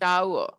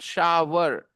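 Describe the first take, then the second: First: No w sound is pronounced in the middle. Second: A w sound is pronounced in the middle. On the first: The speaker calls it right. "W is silent, and the sound is शावर" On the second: The speaker calls it wrong. "It is not shower. Shower is the wrong pronunciation"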